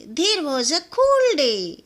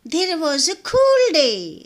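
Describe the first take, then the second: No difference in how they are said.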